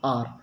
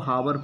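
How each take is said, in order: First: The word starts with a vowel sound. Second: The word starts with an h sound. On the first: The speaker calls it right. "इसका सही pronunciation है" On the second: The speaker calls it wrong. "बहुत सारे लोग इसको हावर पढ़ते हैं ... ये गलत है"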